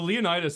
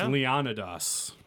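First: The name is pronounced the English way. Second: The name is pronounced the Greek way. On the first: The speaker calls it wrong. "Leonidas is not at all how you're supposed to say it" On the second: The speaker calls it right. "That's how you're supposed to say it"

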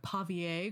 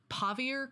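First: The name is pronounced with French sounds. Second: The name is pronounced with English sounds.

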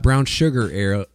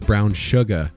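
First: The word ends with an R sound. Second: The word ends without an R sound. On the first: The speaker calls it wrong. "it's not brown sugar ale" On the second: The speaker calls it right. "There's no R in that word"

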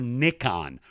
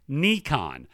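First: The first syllable sounds like 'nick'. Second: The first syllable does not sound like 'nick'. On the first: "rhyming with kick on" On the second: "the correct way is, phonetically spelling here"

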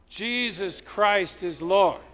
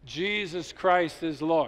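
First: It is said louder. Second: It is said at normal volume.

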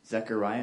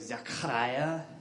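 First: The ch is a plain, soft English k sound. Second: The ch is a harsh rasp from the throat.

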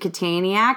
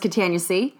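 First: It is said as one word ending in yak. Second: It ends with the letter C said separately. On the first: "you pronounced it Kataniac" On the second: "I just thought it was Catania C"

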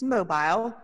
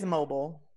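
First: It is said in an English accent. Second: It is said in a non-English accent. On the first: "if you're English, if you talk like this, it's mobile" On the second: "but it's mobile"

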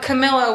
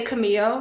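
First: The name is pronounced the Italian way. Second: The name is pronounced the Spanish way. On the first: The speaker calls it right. "Camillo would be the Italian" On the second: The speaker calls it wrong. "No, that's Spanish"

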